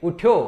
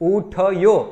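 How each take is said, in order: First: The 'th' is half, joined to the next sound. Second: The 'th' is said as a full separate syllable. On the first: The speaker calls it right. "એવો શબ્દ છે" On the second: The speaker calls it wrong. "એમ નહીં"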